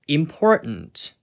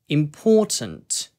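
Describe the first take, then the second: First: An American accent with the t swallowed. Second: A British accent with a clear t sound. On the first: "미국식으로는 아까 말씀드린 뭔가 응 이런 먹는 발음인" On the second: "영국식으로는 T 발음을 살려가지고"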